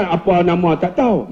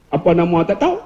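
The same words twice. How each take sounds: First: Said in the usual way. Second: Kedah question with a rise on "tahu"; Kedah dialect. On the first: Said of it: "Rupanya bukan apa nama tak tahu". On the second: Retold or imitated. Ustaz quoting how Kedah people ask, imitated Kedah dialect. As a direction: lift the end, Kedah-style, on "tak tahu". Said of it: "Orang Kedah".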